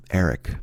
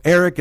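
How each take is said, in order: First: Low, soft, sighed-out name; reluctant admission. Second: Incredulous repeat. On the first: Girlfriend finally admitting who she was with, reluctant and low. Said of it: "you sighed and said". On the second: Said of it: "And I said his name". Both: Retold or imitated.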